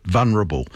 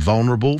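First: "vulnerable" mispronounced as VUN-erable, no L; L dropped from vulnerable. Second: "vulnerable" with the L clearly sounded, VUL-nerable; L pronounced in vulnerable. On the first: Doctor showing listeners the error, "vulnerable" said as vunnerable. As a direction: say "vulnerable" wrongly, leaving out the first L. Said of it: "There is no word". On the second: Doctor correcting listeners' pronunciation, "vulnerable" with its L sounded. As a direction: say "vulnerable" carefully, keeping the L before the N. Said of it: "There is an L in there". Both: Shown as a demonstration.

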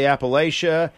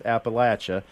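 First: Appalachia with a long AY, "appa-LAY-sha"; disfavored pronunciation. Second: Appalachia with a short A, "appa-LATCH-uh"; correct local pronunciation. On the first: Citing how some people say it, Appalachia as "appa-LAY-sha". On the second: Teaching the correct form, Appalachia as "appa-LATCH-uh". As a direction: say Appalachia to rhyme with "apple at ya". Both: Shown as a demonstration. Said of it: "the correct is Appalachia".

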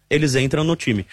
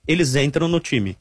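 No difference in how they are said.

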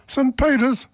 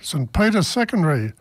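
First: "Saint Peter's?" jumps higher in amazed disbelief; amazed echo of "Saint Peter's?", rising higher; surprised. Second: Said in the usual way. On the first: Acted. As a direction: echo "Saint Peter's?" as a delighted question, pitch leaping up. Joke: second Irishman amazed.

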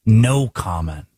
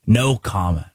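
First: "No comment" drawn out slowly, leaning on "No"; slow mock echo. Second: Said in the usual way. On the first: Shown as a demonstration. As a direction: repeat "No comment" slowly, hitting "No".

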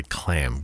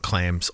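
First: "clam" ending cleanly on the M, no S; corrected singular. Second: "clams" with a clear final S, as first said by mistake; wrong plural. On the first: Radio host correcting the band name to "clam", no S. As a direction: say "clam", stop on the M. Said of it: "clam without the S". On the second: Radio host repeating his mistaken band name, "clams" with the S. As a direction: say "clams", ending on a hissed S. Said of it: "I should say clam without the S". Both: Shown as a demonstration.

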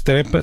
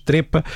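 First: Trepa with an open E, "trɛpa"; trepa, open E as in the verb; verb pronunciation. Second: Trepa with a closed E, "trêpa"; trepa, closed E as in the surname; surname pronunciation. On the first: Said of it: "diz-se trepa". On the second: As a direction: say trepa with the closed E of the family name. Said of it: "se for um apelido de uma família, diz-se trepa". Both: Shown as a demonstration.

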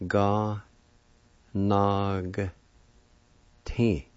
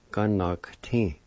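First: "Ga, nog, ti" as three separate syllables, long pauses between. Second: Said in the usual way. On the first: Shown as a demonstration. Teacher shows learners the word for physician, syllable by syllable. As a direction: sound out "Ga, nog, ti" slowly, piece by piece. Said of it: "pronounce the G sound with the N A like this". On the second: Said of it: "like this".

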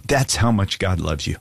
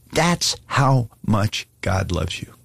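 First: Said in the usual way. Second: "That's how much God loves you" slowly, word by word; slow, emphatic repeat. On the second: Real, not acted. Preacher wants listeners to hear him, slow and emphatic. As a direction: weigh each of "That's", "how", "much", with a gap after it. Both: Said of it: "I want you to hear me".

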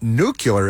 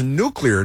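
First: "nuclear" said noo-kyuh-ler; "nuclear" with kyuh and the l moved; "nuclear" as nucular, mocked; mispronounced nuclear. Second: "nuclear" said noo-klee-er, clean; "nuclear" with clee in the middle; correct nuclear. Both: Shown as a demonstration. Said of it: "the word is nuclear, not nuclear".

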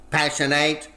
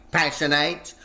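No difference in how they are said.

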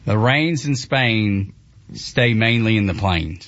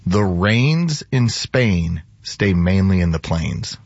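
First: Slow, with a Southern drawl on "rains"; slow Southern attempt. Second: Slow, carefully enunciated "The rains in Spain"; slow elocution demo. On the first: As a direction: try the line but stay country. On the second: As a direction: model proper diction, very deliberately. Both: Shown as a demonstration. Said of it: "I want you to say".

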